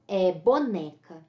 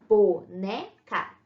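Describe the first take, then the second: First: Said in the usual way. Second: Boneca said slowly syllable by syllable, bo-ne-ca; split into syllables. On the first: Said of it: "Então, por exemplo". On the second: Shown as a demonstration. Teacher showing students the syllables of boneca. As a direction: pull boneca apart slowly into its three syllables. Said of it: "Então, nós temos".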